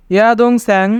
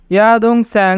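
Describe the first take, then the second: No difference in how they are said.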